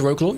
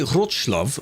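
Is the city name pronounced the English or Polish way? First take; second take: English; Polish. First: The name is pronounced with English sounds. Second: The name is pronounced with Polish sounds. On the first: The speaker calls it wrong. "I've said it wrong because I've said it in the English way" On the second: The speaker calls it right. "which is basically what it's meant to be"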